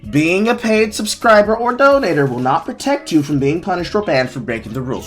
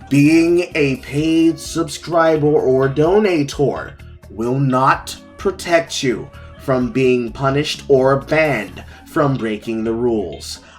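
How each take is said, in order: First: It is read in a plain, neutral way. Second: It is read with strong, forceful emphasis.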